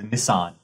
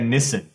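First: The name is said in a non-British way. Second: The name is said in a British way. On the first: "She drives a Nissan" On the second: "They call it like a Nissan. In England, they call Nissan a Nissan"

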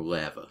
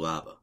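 First: Lava is said with a Canadian pronunciation. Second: Lava is said with an American pronunciation.

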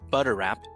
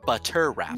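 First: The middle consonant is a soft D-like tap. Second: The middle consonant is a crisp, clear T. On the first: "you say butter wrap" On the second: "they enunciate their tea. So they say butter wrap"

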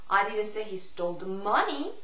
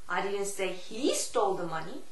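First: The stress falls on the word money. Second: The stress falls on the word he. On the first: "Money의 강세를 주느냐" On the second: "He의 강세를 주느냐"

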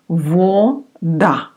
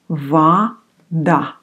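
First: The first vowel sounds like o. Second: The first vowel sounds like a. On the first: The speaker calls it wrong. "This one is written вода" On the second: The speaker calls it right. "О often you pronounce like А. So it's actually вода"

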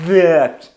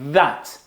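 First: The th is made with the tongue too far back. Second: The th is made with the tongue forward. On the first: The speaker calls it wrong. "язик не занадто далеко, щоб не було that" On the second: The speaker calls it right. "Він трошечки ось тут повинен бути"

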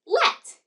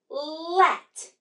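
First: The word is said quickly, all at once. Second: The word is stretched out slowly, sound by sound. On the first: "Now say it in a snap" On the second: "Blend with me"

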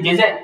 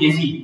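First: Z is said as 'zed', British style. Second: Z is said as 'zee', American style. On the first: "London JZ" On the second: "Kalau Amerika dia panggil JZ"

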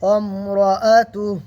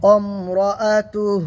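No difference in how they are said.

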